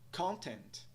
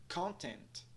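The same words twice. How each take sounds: Both takes have the same delivery.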